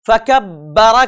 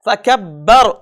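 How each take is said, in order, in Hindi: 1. यह शब्द अंत में एक स्वर-ध्वनि पर खत्म होता है। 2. यह शब्द एक रुके हुए व्यंजन पर खत्म होता है।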